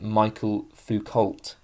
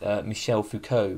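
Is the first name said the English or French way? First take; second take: English; French. First: The first name sounds like English Michael. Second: The first name sounds like French Michel. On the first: The speaker calls it wrong. "I would intuitively pronounce it" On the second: The speaker calls it right. "but I believe it's"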